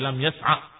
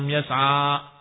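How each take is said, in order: First: The final vowel is cut short. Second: The final vowel is held long. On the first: The final alif has been dropped. "jadi pendek" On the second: The word still has its final alif.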